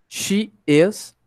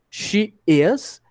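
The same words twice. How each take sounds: The two takes are said the same way.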